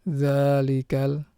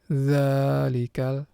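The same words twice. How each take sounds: Both takes have the same delivery.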